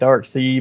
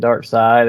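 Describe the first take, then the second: First: The second part sounds like 'sea'. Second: The second part sounds like 'side'. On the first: This is how the spelling looks. The speaker calls it wrong. "It looks like dark sea" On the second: This is the actual pronunciation. The speaker calls it right. "but it's actually dark side"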